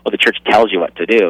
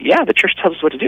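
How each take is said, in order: First: It sounds resentful, like a complaint. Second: It sounds glad, like good news.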